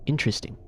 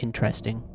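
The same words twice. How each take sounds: First: "Interesting" with a schwa in the middle; corrected pronunciation. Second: "interesting" with a clear EH in the middle; disapproved pronunciation. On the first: Ex showing the right way, "Interesting" as IN-truh-sting. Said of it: "Don't say it like interesting". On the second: Quoting the ex's correction, "interesting" the wrong way, IN-tress-ting. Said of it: "Don't say it like". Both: Retold or imitated.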